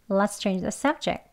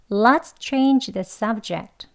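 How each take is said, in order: First: It is spoken fast with the final t dropped. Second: It is spoken slowly with the final t clear. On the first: "빨리도 해볼게요" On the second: "천천히 같이 해보겠습니다"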